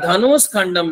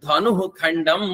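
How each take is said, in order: First: A 'sh' sound joins the two words. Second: No 'sh' sound comes between the words. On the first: The speaker calls it wrong. "ଧନୁଷ ଖଣ୍ଡମ ହବନି" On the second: The speaker calls it right. "କଣ ହବ? ଧନୁ ଖଣ୍ଡମ।"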